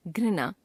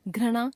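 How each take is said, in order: First: Said in the usual way. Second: घृणा as "ghrana", with a; wrong pronunciation. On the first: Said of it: "शुद्ध". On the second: Shown as a demonstration. Teacher showing a common error, घृणा as "ghrana". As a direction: replace the ri of घृणा with ra. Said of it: "अशुद्ध".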